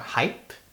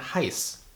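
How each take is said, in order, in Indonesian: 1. Konsonan terakhir bukan bunyi s. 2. Konsonan terakhir adalah bunyi s. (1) "jadi bukan" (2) "Ingat huruf B di situ dibaca S Z, ... melainkan"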